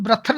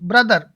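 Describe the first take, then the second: First: The middle consonant is an aspirated t. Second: The middle consonant is a d sound. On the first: The speaker calls it wrong. "तो हम ब्रथर नहीं बोलेंगे" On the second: The speaker calls it right.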